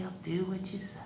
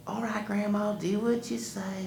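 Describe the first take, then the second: First: Soft unvoiced whisper; whispered repeat. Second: Put-on lightly high obedient boy; a hint of boy obeying. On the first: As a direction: say it under your breath. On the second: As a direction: give in reluctantly. Wiley obeys.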